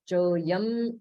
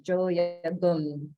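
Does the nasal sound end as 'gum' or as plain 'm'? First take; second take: m; gum. First: The nasal is said as a plain 'm' sound. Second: The nasal is said as a full 'gum' syllable. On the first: "It's Jo Yam Shivabhi" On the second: "they don't pronounce that as Jo Yagum"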